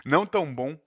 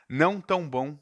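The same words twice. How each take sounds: The two takes are said the same way.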